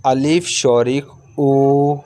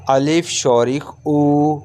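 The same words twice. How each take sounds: The two takes are said the same way.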